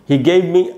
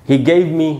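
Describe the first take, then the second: No difference in how they are said.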